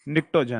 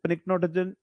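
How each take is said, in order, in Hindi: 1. यह शब्द n की आवाज़ से शुरू होता है। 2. यह शब्द p की आवाज़ से शुरू होता है। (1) "साइलेंट रहता है" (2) "ऐसा नहीं बोलते अपन"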